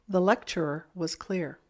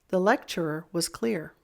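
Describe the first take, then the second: Both takes have the same delivery.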